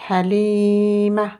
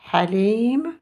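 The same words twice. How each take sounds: First: "Halim." with long i and a short final a, Ha-lii-ma; feminine form. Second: "Halim." with long rising i, ending on m; masculine form. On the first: Teacher reads the feminine name, "Halim." as Ha-lii-ma. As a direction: stretch the i, then add a brief a to "Halim.". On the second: Teacher contrasts with the feminine name, "Halim." ending on m. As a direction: stretch and lift the i in "Halim.", no final vowel. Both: Shown as a demonstration. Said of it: "d'un prénom féminin".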